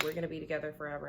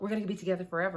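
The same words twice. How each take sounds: First: Rattled off very fast, mock-dreamy; rushed dreamy quote. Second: Louder, eager, not rushed; mock excited gush. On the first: Client rattles off her hopes, fast and mock-dreamy. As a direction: gush it out fast like a hopeful client. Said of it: "And it's just like". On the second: Client gushes to the reader, louder and eager. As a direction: blurt it out hopeful and keen.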